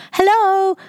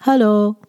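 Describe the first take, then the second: First: Hello pitched much higher, lively rising tune; a bright, smiling Hello; cheerful smiling Hello. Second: Flat, gloomy Hello, no lift; a sullen, expressionless Hello; dark Japanese-style Hello. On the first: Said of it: "快活なイントネーションで微笑みながらのHello". (明るく笑顔で高めの「Hello」) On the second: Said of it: "こんなイントネーション使ってませんか". (暗く無表情な「Hello」) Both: Shown as a demonstration.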